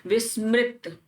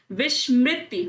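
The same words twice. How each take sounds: First: विस्मृत ending on t, no i; correct word form. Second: विस्मृति with a sh and final i; wrong word form. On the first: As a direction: say विस्मृत as vis-mrit. (विस्मृत, अंत में इ नहीं) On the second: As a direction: say विस्मृति as vish-mri-ti. (विस्मृति के अंत में 'ति') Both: Shown as a demonstration. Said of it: "नहीं होता".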